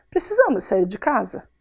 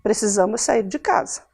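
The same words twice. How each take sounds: First: "Precisamos sair de casa?" asked as a question. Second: "Precisamos sair de casa" as a flat, falling statement. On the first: Teacher contrasting question with statement, asking. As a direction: ask it, doubting. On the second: Teacher contrasting statement with question, declarative. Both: Shown as a demonstration.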